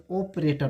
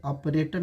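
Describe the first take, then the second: First: ऑपरेटर as "oh-prator"; correct pronunciation. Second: ऑपरेटर as "ap-rator", open first vowel; wrong pronunciation. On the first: Teacher gives the right ऑपरेटर, long "o". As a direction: round the start of ऑपरेटर to a long "o". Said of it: "इसे ऑपरेटर पढ़ा जाता है". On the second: Teacher says it isn't read ऑपरेटर, open vowel. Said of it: "नहीं पढ़ा जाता है". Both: Shown as a demonstration.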